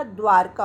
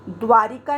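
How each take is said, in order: First: द्वारका without the ई, dvaarka; correct form. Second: द्वारिका with a long ई after व; wrong spelling read out. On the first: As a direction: says द्वारका cleanly as the right form. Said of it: "द्वारका होता है". (सही उच्चारण द्वारका) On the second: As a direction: says द्वारिका as the wrong form, dvaarika. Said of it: "द्वारिका नहीं होता". (गलत उच्चारण द्वारिका) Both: Shown as a demonstration.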